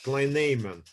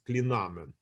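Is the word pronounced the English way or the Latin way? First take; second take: English; Latin. First: It is said with an English-style pronunciation. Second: It is said with a Latin-style pronunciation. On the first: "as the English say" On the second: "I prefer to pronounce it as in Latin"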